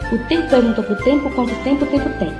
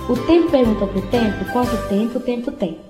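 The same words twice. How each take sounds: First: The sentence is said at a quick pace. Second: The sentence is said at a slow pace.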